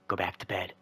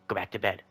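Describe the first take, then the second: First: It is said in a calm, quiet voice. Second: It is said a little more forcefully.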